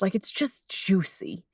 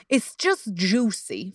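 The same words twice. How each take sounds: First: Said in the usual way. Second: Slow, savoring drawl on juicy. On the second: Shown as a demonstration. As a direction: linger over it like something delicious.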